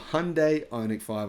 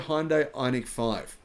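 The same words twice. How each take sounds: First: The name is said in the American pronunciation. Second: The name is said in a non-American pronunciation.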